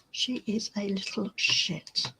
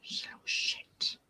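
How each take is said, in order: First: Said in the usual way. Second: Full whisper, just breath; whispered aside. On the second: Real, not acted. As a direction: tell the camera secretly she's a pest. Aside about the cat.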